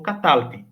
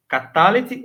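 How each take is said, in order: First: Catalte as ka-TAL-ti; three-syllable catalte with closed L; shorter variant catalte. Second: Catalete as ka-TA-le-ti, vowel after L; longer variant Catalete. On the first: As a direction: run L into T in catalte, no E. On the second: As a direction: sound four syllables in Catalete. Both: Shown as a demonstration. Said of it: "os dois estão corretos".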